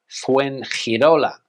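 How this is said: It is said with a Spanish accent. The speaker calls it right. "but in Spanish"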